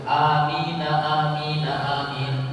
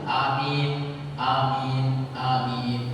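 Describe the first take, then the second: First: The words are joined with a linking vowel. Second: The words are said separately without linking. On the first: "Ya karena disambung" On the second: "Kalau tidak disambung"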